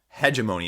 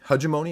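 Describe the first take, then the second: First: The first syllable sounds like the word hedge. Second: The first syllable does not sound like hedge. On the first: "it's not hedge, H E D G E, hegemony, as I was pronouncing it before" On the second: "am I pronouncing that right?"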